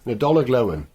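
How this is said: It is said with a West Country accent. This is the Cornish phrase. "just said with a West Country accent like that, and a soft and double L's to it"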